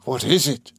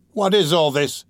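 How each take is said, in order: First: Understated angry echo; enraged. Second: High, startled question; involuntary cry. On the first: Fagin pursuing the girl's question, enraged. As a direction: fling the question back with held-in rage. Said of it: "mad with rage". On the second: Girl alarmed by Fagin's threat, startled. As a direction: blurt it out with raised pitch. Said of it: "cried the girl involuntarily". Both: A narrator's reading.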